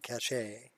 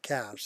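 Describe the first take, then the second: First: It ends with a pronounced E, like cash-ay. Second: It ends with a silent E, like cash. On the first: "some people call it the cache" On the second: "I've always pronounced it cache"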